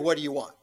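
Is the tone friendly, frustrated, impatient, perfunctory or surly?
perfunctory. It sounds routine and perfunctory.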